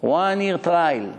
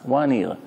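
First: "One year trial" drawn out slowly, each word weighed; stress on one year. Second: Said in the usual way. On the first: Shown as a demonstration. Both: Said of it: "Why you need to say one year?".

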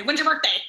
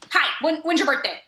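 First: Mock blunt yell. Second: Put-on kid's blunt question. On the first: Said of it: "yell at them in a tone". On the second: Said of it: "the first thing they say".

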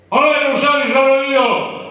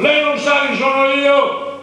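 First: Loud, high indignant bark; arrogant shout. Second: Loud, high and slow indignant yell; arrogant shout. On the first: The officer on the bus, shouting arrogantly at the driver. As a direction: shout down the whole bus with your rank. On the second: The officer on the bus, yelling slowly to pull rank on everyone. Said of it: "Io da con l'urlo". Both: Retold or imitated.

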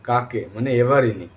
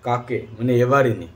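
Both takes have the same delivery.

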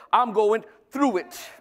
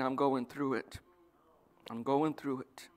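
First: Slow, emphatic declaration of faith; drawn-out, confident proclamation; positive declaration. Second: Low, subdued resignation; soft and low, weighed down; defeated complaint. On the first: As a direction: declare it as someone sure of coming out the other side. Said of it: "But you should be". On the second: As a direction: sigh it out like someone worn down by troubles. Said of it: "it's the same words, but it's a totally different concept". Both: Acted.

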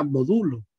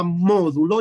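First: Módulo said as "modúlo", pitch peaking on DU; stress on the U. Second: Módulo with the beat on MÓ; stress on first O. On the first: Teacher showing students the other reading of módulo, stress on the U. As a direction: shift the beat in módulo to the second syllable, "mo-DÚ-lo". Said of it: "la opción de que diga módulo". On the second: Teacher explaining the accent in módulo to students, stress on MÓ. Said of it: "lleva acento en la O". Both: Shown as a demonstration.

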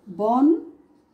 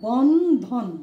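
First: বন্ধন in one breath, a little louder, rising at the end; one-breath বন্ধন with a lifted ending; বন্ধন said as one clear unit. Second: বন্ধন spoken whole, a little louder, falling at the end; one-breath বন্ধন, clearly articulated; বন্ধন said as one clear unit. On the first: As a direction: say বন্ধন whole with a slight rise. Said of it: "এই যে আমরা পড়লাম বন্ধন". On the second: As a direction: say বন্ধন in a single firm push of breath. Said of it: "এটাকে যদি আমরা একটু বলি তাহলে কিভাবে বলছি?". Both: Shown as a demonstration.

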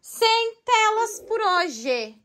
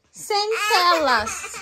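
First: Slow, high, stretched "Sem telas por hoje"; firm rule. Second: "Sem telas" repeated slowly through a laugh. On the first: Mother slowly insisting to her daughter: no screens today. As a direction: lay down the rule, drawing out "Sem". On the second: Mother laughing as she repeats no screens to her crying daughter. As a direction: give up and laugh while saying "Sem telas". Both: Shown as a demonstration. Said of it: "O que que eu falei pra senhorita?".

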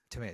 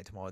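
First: "tomato" with an AY middle; American tomato. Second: "tomato" with an AH middle; British tomato. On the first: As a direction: say "tomato" as tuh-MAY-toh. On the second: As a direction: say "tomato" as tuh-MAH-toh. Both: Shown as a demonstration. Saying both versions of tomato.

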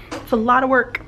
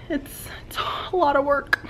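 First: Said in the usual way. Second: Soft whispered complaint; whispering. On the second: Real, not acted. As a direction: whisper it like a confession. Whispered complaint, then repeated aloud.

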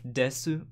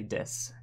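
First: "desu" with both syllables, the final u clearly voiced; full desu. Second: "des" with the final u dropped, ending on a soft hiss; clipped des. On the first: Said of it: "instead of". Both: Shown as a demonstration.

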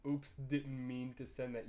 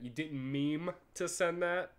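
First: Said in the usual way. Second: "meme" said clearly in place of "mean", slower and a bit higher; pun on meme. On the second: Shown as a demonstration. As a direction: lean on "meme" as a teasing pun.

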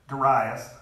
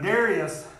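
First: Darius said da-RYE-us, stress on the second syllable; pronunciation Darius. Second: Darius said DARE-ee-us, stress on the first syllable; pronunciation Darius. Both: Shown as a demonstration. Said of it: "I've heard it both ways".

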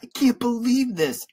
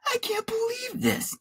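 First: Put-on high-pitched boy's protest; crying out. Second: Very high, strained yell held back in volume. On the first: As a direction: cry out in upset disbelief. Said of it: "I cried". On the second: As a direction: squeal it out in outrage. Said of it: "I yelled". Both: A narrator's reading.

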